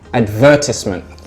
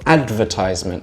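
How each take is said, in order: First: The stress is on the second syllable. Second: The stress is on the first syllable. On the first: "So the stress is on the ver" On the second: "so the stress is on the ad"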